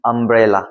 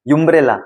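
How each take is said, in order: First: Said in the usual way. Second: यूम्ब्रेला opening with a "yoo" sound; wrong letter-name reading. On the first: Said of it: "वो होता है अ". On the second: Shown as a demonstration. Teacher shows learners the wrong umbrella, mispronounced यूम्ब्रेला with "yoo". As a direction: say umbrella as यूम्ब्रेला, "you-mbrella". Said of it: "नहीं बोला ना".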